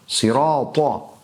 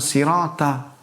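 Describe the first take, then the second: First: The t is heavy and deep-sounding. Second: The t is light and plain. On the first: The speaker calls it right. "Mana ta, mana to" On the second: The speaker calls it wrong. "Bukan sirata"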